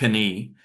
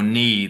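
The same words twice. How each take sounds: First: The word starts with a k sound. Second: The word starts without a k sound. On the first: The speaker calls it wrong. "It's not knee" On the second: The speaker calls it right. "there's the silent letter K"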